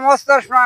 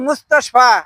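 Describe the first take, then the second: First: The word has no sh sound inside. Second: The word has an sh sound inside. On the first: The speaker calls it wrong. "মোস্তফা না" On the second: The speaker calls it right. "ওরে না হলো মুস্তাশফা, আরবিতে কয় মুস্তাশফা"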